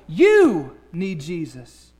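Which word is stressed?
You. The stress is on the word you.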